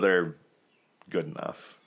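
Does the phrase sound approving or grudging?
grudging. It sounds grudging and merely adequate. The team is only barely adequate. "I'm afraid they're just good enough"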